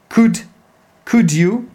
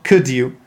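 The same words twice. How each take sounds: First: The word 'could' is full with a strong vowel. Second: The word 'could' is reduced with a weak vowel. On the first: The speaker calls it right. "in a question tag, you have to say could you" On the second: The speaker calls it wrong. "not could you"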